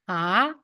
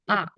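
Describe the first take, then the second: First: It is said with the second tone. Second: It is said with the fourth tone. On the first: "the second one" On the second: "And the last one"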